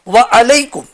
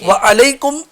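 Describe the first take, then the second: First: The words stay apart as 'wa alaikum'. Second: The words stay apart as 'wa alaikum'.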